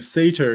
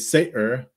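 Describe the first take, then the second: First: The middle T is a full T sound. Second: The middle T is a glottal stop. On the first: "instead of saying satyr" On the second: "if you have that T glottalization of the satyr"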